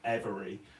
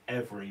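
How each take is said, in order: First: The word is said with three syllables. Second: The word is said with two syllables. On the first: "rather than three syllables" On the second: "I basically say it like two syllables"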